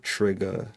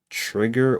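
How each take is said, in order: First: The word ends with an open 'a' sound. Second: The word ends with a hard R sound. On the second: "Hard R"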